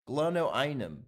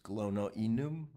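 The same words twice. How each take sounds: First: The word is said with English-style sounds. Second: The word is said with Latin-style sounds.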